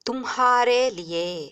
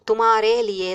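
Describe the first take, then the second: First: The h sound in tumhare is pronounced. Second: The h sound in tumhare is dropped.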